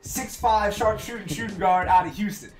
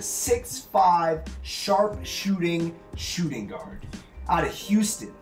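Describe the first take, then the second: First: The phrase is spoken at a quick pace. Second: The phrase is spoken at a normal pace.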